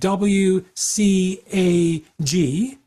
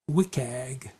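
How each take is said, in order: First: Every letter is spoken separately. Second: One letter is followed by a single word. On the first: "you can say like W C A G, and that's okay" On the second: "pronouncing the letter W, but then taking the C A G and making it into a little word"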